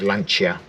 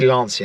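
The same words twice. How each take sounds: First: The name is said with an Italian pronunciation. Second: The name is said with an English pronunciation. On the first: "instead of Lancia" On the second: "I say Lancia"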